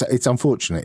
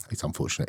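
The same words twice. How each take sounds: First: Said in the usual way. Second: Whispered aside. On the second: Real, not acted. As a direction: drop to a whisper on it.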